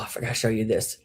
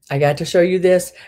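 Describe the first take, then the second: First: Said in the usual way. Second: Excited. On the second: Real, not acted.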